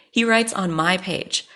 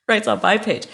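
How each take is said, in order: First: Said in the usual way. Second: Disbelieving laugh. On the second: Real, not acted. Repeating it in disbelief.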